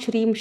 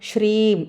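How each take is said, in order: First: The word is said quickly and rattled off. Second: The word is said slowly and drawn out. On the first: The speaker calls it wrong. "ரொம்ப வேகமா ... கடகடன்னு சொல்லக்கூடாது" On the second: The speaker calls it right. "அப்படி மெதுவா சொல்லணும்"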